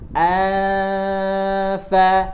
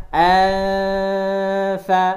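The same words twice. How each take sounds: The two takes are said the same way.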